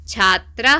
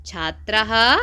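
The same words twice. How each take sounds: First: छात्रः said as "chhaatra", visarga barely sounded, rising; clipped visarga. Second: छात्रः ending in a clear breathy "ha", as "chhaatra-ha"; visarga sounded. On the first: Teacher models छात्रः plainly for the class to repeat. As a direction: say छात्रः short, without the final "ha". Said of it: "हमारे साथ बोलते चलिए". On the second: Teacher models the visarga in छात्रः for students to copy. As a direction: let छात्रः end on an audible echo "ha". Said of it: "तो हा की ध्वनि निकालनी होती है". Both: Shown as a demonstration.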